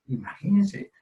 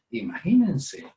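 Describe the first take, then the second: First: Imagínense said higher with a rising tune; imagínense, stressed. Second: Said in the usual way. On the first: Acted. Preacher urging the congregation to picture God's blessing, imagínense rising high. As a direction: lift imagínense up, inviting wonder. Preacher repeats word for emphasis.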